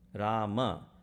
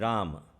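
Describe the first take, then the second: First: The name ends with a final a vowel. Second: The name ends on the m sound. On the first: The mantra keeps all thirteen syllables. The speaker calls it right. "That is not the correct way of saying" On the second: One syllable of the mantra is lost. The speaker calls it wrong. "Ram with the M, no A, uh, destroys the mantra"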